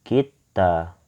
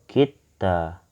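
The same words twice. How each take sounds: Both takes have the same delivery.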